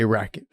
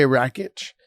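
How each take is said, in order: First: Rakic ending in a hard "k" sound. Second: Rakic ending in a "tch" sound; soft ch ending. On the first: Host giving his co-host's version of the name, Rakic ending "ick". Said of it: "and you say Rakic". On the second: Host settling how he'll say a fighter's name, Rakic ending "itch". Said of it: "I'm gonna say Rakic". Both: Shown as a demonstration.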